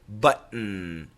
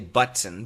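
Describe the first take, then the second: First: The T is a glottal stop in the middle. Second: The T is fully released in the middle. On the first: "we usually use a glottal stop" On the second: "We don't say button. Button is perfect"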